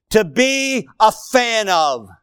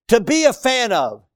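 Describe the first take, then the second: First: Spoken slowly, stressing "a fan of"; preacher defines diligence, slow and deliberate; slow defining line. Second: Said in the usual way. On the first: Shown as a demonstration. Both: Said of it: "defining diligence".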